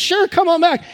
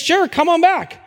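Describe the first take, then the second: First: Higher again, cheerfully inviting back; the same breezy welcome, brighter; cheery clerk. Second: Bright higher cheerful clerk voice; cheery clerk. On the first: Pastor repeating the licence office's cheery invitation. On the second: Pastor voicing the licence office, cheerily inviting them back. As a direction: sing it out like a friendly desk clerk. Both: Retold or imitated.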